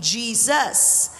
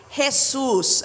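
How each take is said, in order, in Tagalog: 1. Ang pangalan ay binibigkas sa paraang Ingles. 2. Ang pangalan ay binibigkas sa paraang Tagalog. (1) "na-translate naman sa English language, naging Jesus" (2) "kung may Tagalog Bible kayo, ang pronunciation ay Jesus"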